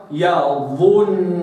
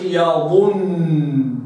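First: Slow يظنون with the noon held and nasal; doubled noon. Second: يظن clipped, the noon cut short; wrong reading. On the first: Teacher showing the ghunna after damma. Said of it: "نحو". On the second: Teacher showing how not to read it. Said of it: "ما قلش". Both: Shown as a demonstration.

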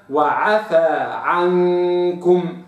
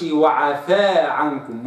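First: Chanted, very slow وعفى عنكم with the alif held open; chanted, intone وعفى عنكم carefully as in tajweed; slow Quranic chant of وعفى عنكم; chanted correct recitation. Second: وعفى عنكم said with the wrong vowel length; wrong reading. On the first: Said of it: "وإنما". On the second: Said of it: "ما أقولش". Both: Shown as a demonstration.

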